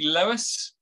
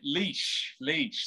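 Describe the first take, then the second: First: The name is said with two syllables, like Lewis. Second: The name is said with one syllable, like Leash. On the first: The speaker calls it wrong. "not Lewis" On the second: The speaker calls it right. "That's how you pronounce it"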